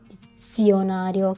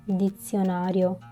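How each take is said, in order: First: The z sound is hard and strong. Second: The z sound is soft and light. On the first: The speaker calls it wrong. "It is not" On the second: The speaker calls it right. "It is light"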